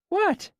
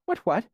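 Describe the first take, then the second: First: "What?" as a true question, much higher; the old man truly asking this time; real question. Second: "What, what?" said higher, falling and flat, not asking; an old man soothing rather than asking; not questioning tone. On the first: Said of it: "It was a question this time". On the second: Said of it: "he repeated in the same, not questioning tone". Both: A narrator's reading.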